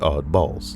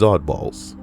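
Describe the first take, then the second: First: It is said as two separate words. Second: It is said smoothly as one word. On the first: The speaker calls it wrong. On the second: The speaker calls it right.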